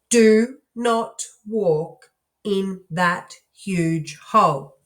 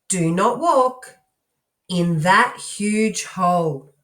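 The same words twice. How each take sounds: First: Each word is said separately, like a robot. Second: The words are grouped together into smooth phrases. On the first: The speaker calls it wrong. "I'm going to read like a robot" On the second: The speaker calls it right. "if we scoop some of the parts together and we phrase it"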